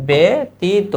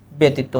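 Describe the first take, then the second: First: "ব্যতীত" higher, as be-ti-to in separate syllables; correct pronunciation. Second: Said in the usual way. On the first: Shown as a demonstration. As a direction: spell out "ব্যতীত" by sound, opening on a clear be. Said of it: "উচ্চারণ হবে". ("ব্যতীত" বে-তি-তো করে স্পষ্ট ভেঙে বলা) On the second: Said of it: "সঠিক উচ্চারণ হচ্ছে".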